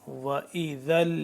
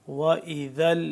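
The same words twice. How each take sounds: No difference in how they are said.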